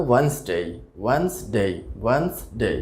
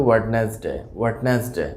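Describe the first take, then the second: First: ওয়েডনেসডে in two beats, "WENZ-day"; correct pronunciation. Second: ওয়েডনেসডে in three beats, "wed-nes-day"; common mispronunciation. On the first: Teacher models the word for learners, correctly pronounced. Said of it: "সঠিক উচ্চারণটা হবে". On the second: Teacher shows the usual mistake, mispronounced. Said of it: "এটিও আসলে ভুল উচ্চারণ". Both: Shown as a demonstration.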